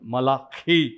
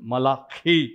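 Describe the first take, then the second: First: The name is pronounced the Hebrew way, forcefully. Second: The name is pronounced the Hebrew way, forcefully.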